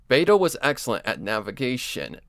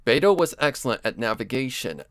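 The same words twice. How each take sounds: The two takes are said the same way.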